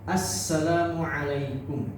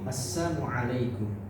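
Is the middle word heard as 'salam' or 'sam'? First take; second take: salam; sam. First: The word salam is said in full. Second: The syllable la is dropped, giving sam. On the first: Peace be upon you. The speaker calls it right. "ucapan salamnya juga harus jelas" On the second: Harm be upon you. The speaker calls it wrong. "Assam itu artinya adalah celaka"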